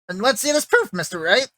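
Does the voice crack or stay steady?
cracks. The voice cracks, jumping up and down in pitch.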